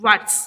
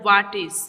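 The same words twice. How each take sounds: First: "what's" as one short syllable; contracted "what's". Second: "What is" as two separate words; full form "What is". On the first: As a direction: run it together as "what's". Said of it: "then here read "what's". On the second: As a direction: sound out the "is" in "What is". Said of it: "We will read that word". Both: Shown as a demonstration.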